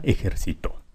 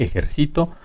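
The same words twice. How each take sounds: First: Ejercito softly stressed ejerci-TÓ, on the last syllable; final-syllable stress. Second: Ejercito pitched up, stressed ejer-CI-to; penultimate stress. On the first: Teacher giving the aguda example, soft final-stressed TÓ in ejercito. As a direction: move the weight of ejercito to a final TÓ. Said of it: "Y aguda". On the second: Teacher giving the grave example, stressed CI in ejercito. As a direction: put the weight on CI in ejercito. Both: Shown as a demonstration.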